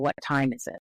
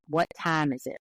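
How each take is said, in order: First: It is said with a general American vowel. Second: It is said with a Southern US vowel.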